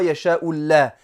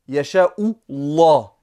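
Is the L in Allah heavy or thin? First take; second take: thin; heavy. First: The L in Allah is thin and light. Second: The L in Allah is heavy and deep. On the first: The speaker calls it wrong. "et non pas" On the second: The speaker calls it right. "le lemme du mot Allah sera grave, sera mufakhama"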